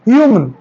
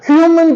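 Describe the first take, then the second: First: The h sound at the start is weak. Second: The h sound at the start is strong. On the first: The speaker calls it right. "एच का sound इसमें भी कम है" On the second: The speaker calls it wrong. "इसको भी हम ह्यूमन पढ़ते हैं"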